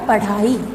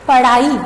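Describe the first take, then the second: First: The middle flap is aspirated. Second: The middle flap is unaspirated. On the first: The speaker calls it right. "ड़ के स्थान पर हमको ढ का प्रयोग करना है" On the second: The speaker calls it wrong. "गलत है"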